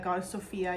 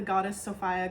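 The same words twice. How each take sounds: First: "Sophia" said as so-FEE-uh; so-FEE-a pronunciation. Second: "Sophia" said as so-FY-uh; so-FY-a pronunciation. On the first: Vlogger giving viewers the other name of the goddess, "Sophia" as so-FEE-uh. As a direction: say "Sophia" with an ee vowel in the middle. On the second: Vlogger giving viewers both names of the goddess, "Sophia" as so-FY-uh. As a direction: say "Sophia" with an eye vowel in the middle. Gives two pronunciations of the name. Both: Shown as a demonstration.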